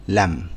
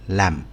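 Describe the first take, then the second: First: The vowel is short and closed. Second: The same.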